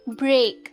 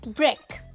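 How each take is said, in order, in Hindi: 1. शब्द अतिरिक्त ज़ोर के साथ बोला गया है। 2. शब्द जल्दी और धीरे से बोला गया है। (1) "थोड़ा सा पुश डालते हैं, स्ट्रेस डालते हैं इस वर्ड पे" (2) "जल्दी से एक सॉफ्ट पुश के साथ इस वर्ड को बोलते हैं"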